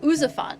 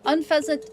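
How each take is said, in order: First: The word has no n sound after its first vowel. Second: The word has an n sound after its first vowel. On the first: The speaker calls it wrong. "I keep saying Ouzafant, and it's not. There's an N in there that I'm not saying" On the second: The speaker calls it right. "Unpheasant is the correct pronunciation"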